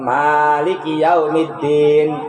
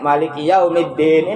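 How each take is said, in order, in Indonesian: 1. Vokal pertama dari maliki dibaca panjang. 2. Vokal pertama dari maliki dibaca pendek. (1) "baca panjang" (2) "aya nu bacana pendek"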